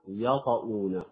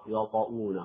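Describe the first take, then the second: First: The first sound is light and open. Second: The first sound is heavy and darkened. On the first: The speaker calls it right. "لا بد من الفتح، من فتح الياء" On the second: The speaker calls it wrong. "يقرأ يطؤون، خطأ"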